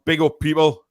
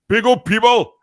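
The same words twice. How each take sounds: First: Said in the usual way. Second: High, loud MC shout of big up; hyped shout. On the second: Shown as a demonstration. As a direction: shout big up like a hype man.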